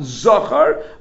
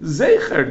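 First: The first vowel is an 'a' sound. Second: The first vowel is an 'e' sound. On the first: It refers only to the males of Amalek. The speaker calls it wrong. "not Zachar" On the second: It refers to the memory of Amalek. The speaker calls it right. "it's supposed to say Zecher"

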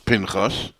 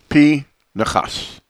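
First: The name is said in two syllables. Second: The name is said in three syllables. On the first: "people whose names are Pinchas refer to themselves as Pinchas" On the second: "The correct pronunciation of the name Pinchas is P. Nechas"

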